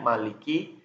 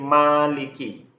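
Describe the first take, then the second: First: The first vowel is short. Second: The first vowel is held long. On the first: "ma-nya tidak menggunakan mat tabi'i. Tidak dipanjangkan" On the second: "Dia dibaca dipanjangkan satu alif"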